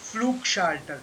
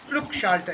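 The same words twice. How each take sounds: First: Flugschalter slow, with a proper long U. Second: Flugschalter with a clipped short U. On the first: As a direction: draw out the U in Flugschalter. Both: Shown as a demonstration. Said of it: "proper U sound".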